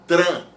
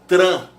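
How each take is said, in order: No difference in how they are said.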